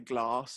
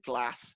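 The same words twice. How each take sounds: First: It is said with a southern English accent. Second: It is said with a northern English accent.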